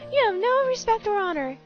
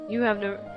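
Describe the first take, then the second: First: It is said in a high, squeaky voice. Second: It is said in a normal voice.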